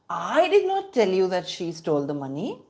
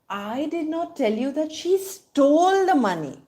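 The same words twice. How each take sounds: First: The word I is stressed. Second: The word stole is stressed. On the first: Someone else told you. "which means I did not tell you, somebody else told you" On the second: She did something else to the money. "which means she didn't steal the money, she did something else to the money"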